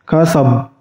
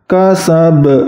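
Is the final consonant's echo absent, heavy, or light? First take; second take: absent; heavy. First: The final consonant has no echo at all. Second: The final consonant has a heavy, pressed echo. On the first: "bacaan yang salah itu apabila tidak dipantulkan"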